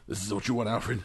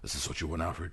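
First: It is said in his normal voice. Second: It is said in a gravelly Batman voice.

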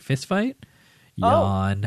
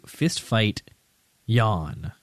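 First: The voice rises on 'fist fight' like a question. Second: The phrase is said flat, with no question rise. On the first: It is read as a question followed by a reply. The speaker calls it right. "It's Fist Fight is a question" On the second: It is read as one plain string of words. The speaker calls it wrong. "I sort of mispronounced it"

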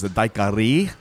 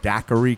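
First: It is said like the Cuban town's name. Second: It is said the other, widespread way. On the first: "which is the actual correct pronunciation" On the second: "I don't know where daiquiri came from"

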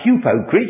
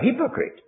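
First: The first vowel is a Greek-style 'oo' sound. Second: The first vowel is an English 'i' sound. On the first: The speaker calls it wrong. "you wouldn't say you're a hypocrite" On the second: The speaker calls it right. "you'd have to say you're a hypocrite, because the U becomes a Y in the English speech"

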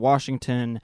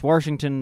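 First: No extra r sound is added in the word. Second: An extra r sound is added in the word. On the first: This is the standard way of saying it. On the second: This is a regional way of saying it.

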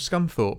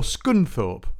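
First: It is said in a southern English accent. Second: It is said in a northern English accent.

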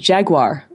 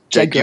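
First: It is said with an American accent. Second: It is said with a British accent.

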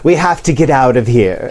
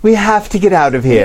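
First: A whispered character voice, only slightly feminine. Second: A whispered character voice, noticeably more feminine. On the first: The speaker calls it wrong. "I have to remember my Jefferson Snodgrass Plank voice" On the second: The speaker calls it right. "A little more feminine"

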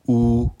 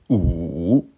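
First: The pitch stays high and level. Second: The pitch dips low, then rises. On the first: "Premier ton" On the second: "Troisième ton"

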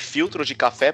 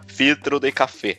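First: It is said with Brazilian Portuguese intonation. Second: It is said with Chilean Spanish intonation.

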